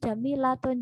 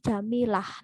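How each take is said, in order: First: The word ends with a full -tun ending. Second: The word ends in a soft h sound. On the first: The full form with its ending pronounced. "tapi Jamilatun jadi Jamilah" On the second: The form used when stopping on the word. "cenderung disukunkan"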